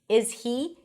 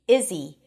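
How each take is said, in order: First: The H of he is pronounced. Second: The H of he is dropped.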